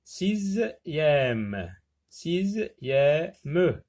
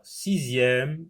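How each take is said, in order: First: "Sixième" pulled apart as si-ziè-me; "sixième" in separate beats with final -me sounded; split into syllables. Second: Said in the usual way. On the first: Shown as a demonstration. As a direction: say "sixième" slowly, one syllable at a time. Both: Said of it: "trois syllabes".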